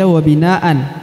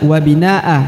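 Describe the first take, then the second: First: The word ends with an n sound. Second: The word ends on a vowel, no n. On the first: The speaker calls it wrong. "kalau berhenti tidak dibaca wabinaan" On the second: The speaker calls it right. "tapi dibaca wabinaa"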